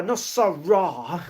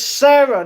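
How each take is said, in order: First: "Sarah" said slowly as SOH-rah, the wrong way; wrong name. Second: "Sarah" said as spelled, SAIR-uh; correct name. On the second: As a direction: give the viewer's name the spelled sound, SAIR-uh. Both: Shown as a demonstration. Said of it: "it's said the same way that it's spelled".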